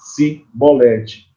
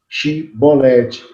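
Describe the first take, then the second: First: The word begins with an 's' sound. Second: The word begins with an 'sh' sound. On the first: It shows the speaker is from Ephraim. The speaker calls it wrong. "eles falavam Cibolete" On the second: This is how the other side says it. The speaker calls it right. "Eles não conseguiam falar Chibolete"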